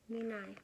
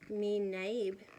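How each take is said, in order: First: The name ends without any final consonant. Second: The name ends with a pronounced final consonant. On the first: The speaker calls it right. "but it's me nai" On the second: The speaker calls it wrong. "This looks like you would say it me naib"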